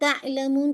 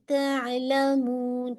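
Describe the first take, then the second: First: The 'ain' sound is jerked abruptly. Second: The 'ain' sound flows smoothly without a jerk. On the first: The speaker calls it wrong. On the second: The speaker calls it right.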